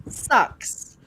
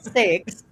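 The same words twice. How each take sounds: First: "Sucks" as the Kiwi way of saying six; North Island pronunciation. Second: "sex" with a clear short e; wrong vowel. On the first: Guest shows North Island six, North Island pronunciation. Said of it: "They say sucks". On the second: Guest rules out the misheard word, wrong vowel. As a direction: say "sex" with an open e, drawn out. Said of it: "No, not sex". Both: Shown as a demonstration.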